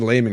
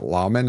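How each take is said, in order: First: The first vowel sounds like 'ay'. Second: The first vowel sounds like 'aw'. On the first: The speaker calls it right. "that's how I pronounced it" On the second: The speaker calls it wrong. "everyone else was pronouncing it Lawman, and I was like, that sounds stupid"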